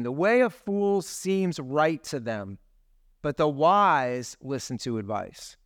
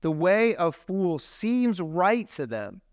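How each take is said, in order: First: Scripture reading. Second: "The way of fools seems right to them" drawn out slowly with weight; slow, pointed reread of the verse; slow emphatic reread. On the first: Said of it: "Proverbs twelve fifteen". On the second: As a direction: lean into the warning, slowly. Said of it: "that's an oof verse". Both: Real, not acted.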